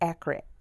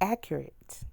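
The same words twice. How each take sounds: First: The word sounds like the car name Acura. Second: The word is said fully as accurate. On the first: The speaker calls it wrong. "not accurate. Not it's not Acura, not a car" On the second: The speaker calls it right. "it's accurate"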